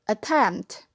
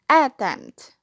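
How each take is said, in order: First: The first vowel is a weak, reduced vowel. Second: The first vowel is a full, strong vowel. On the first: The speaker calls it right. "If in a weak syllable, it must be attempt" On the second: The speaker calls it wrong. "If in a strong syllable, it must be attempt. It sounds so weird"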